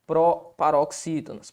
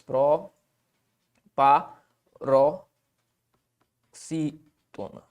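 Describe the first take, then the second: First: Said in the usual way. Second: "Proparoxítona" very slow and low, a pause after each syllable. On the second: Shown as a demonstration. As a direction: dictate "Proparoxítona" in separate pieces: pro, pa, ro, xí, tona. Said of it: "a regra das proparoxítonas". ("Proparoxítona" bem devagar, sílaba por sílaba)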